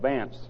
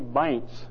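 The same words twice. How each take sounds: First: The name is said in a plain accent. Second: The name is said in a deep Southern accent. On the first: This is how the speaker says his own name. "That's my name" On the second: This is how a friend from the South says the name. "he speaks with a deep southern accent, ... He calls me Vance"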